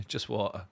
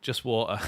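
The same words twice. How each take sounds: First: Through a little laugh. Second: Said in the usual way. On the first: Real, not acted.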